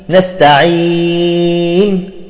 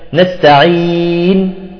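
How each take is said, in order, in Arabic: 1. يُمدّ حرف المد ست حركات. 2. يُمدّ حرف المد أربع حركات. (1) "وستة" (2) "وأربعة"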